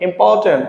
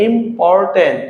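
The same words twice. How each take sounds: First: Said in the usual way. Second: "important" in three beats, im, por, tent; split into syllables. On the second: Shown as a demonstration. Teacher showing three syllables, "important" split im, por, tent. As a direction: separate each syllable of "important". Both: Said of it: "তিনটি অংশ থাকে".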